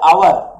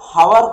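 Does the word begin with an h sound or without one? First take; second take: without h; h sound. First: The word starts with a vowel, no h. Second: The word starts with an audible h sound. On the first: The speaker calls it right. "एच आमे कहूचे आवर" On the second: The speaker calls it wrong. "कोने"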